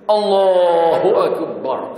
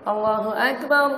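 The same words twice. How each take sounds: First: It is said in a loud, full voice. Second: It is said in a small, quiet voice.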